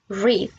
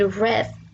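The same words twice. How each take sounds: First: It uses the present-tense pronunciation. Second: It uses the past-tense pronunciation. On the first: The action happens now or habitually. "Read es en presente" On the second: The action already happened. "read es en pasado"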